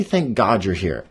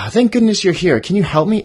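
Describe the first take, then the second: First: Said in the usual way. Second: High, loud relieved plea; lighter bunny plea. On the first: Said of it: "I struggle to say". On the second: Shown as a demonstration. Bunny greets the badger, high relieved plea. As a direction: sound relieved to see him. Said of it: "It's softer".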